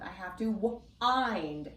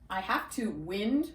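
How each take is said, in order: First: The vowel in wind is a long i. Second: The vowel in wind is a short i. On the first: Turning a clock's key. The speaker calls it right. "Try it with a long I sound" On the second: Moving air. The speaker calls it wrong. "It's a short I"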